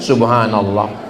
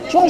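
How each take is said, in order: First: The phrase is said slowly and fully. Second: The phrase is rushed and clipped very fast. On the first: The speaker calls it right. "Kalau subhanallah pasti pelan. ... Ini benar" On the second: The speaker calls it wrong. "Cuman saya heran kok cepat kali. ... Apa ini?"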